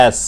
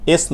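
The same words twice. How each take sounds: First: "এস" as the English letter name, the correct way. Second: "এস" in the common local way; wrong letter S. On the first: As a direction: say "এস" the taught way, not the common way. (ইংরেজি "এস"-এর সঠিক উচ্চারণ) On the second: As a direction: say "এস" as the mistaken form being corrected. (প্রচলিত ভুল উচ্চারণে "এস") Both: Shown as a demonstration. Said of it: "এস না".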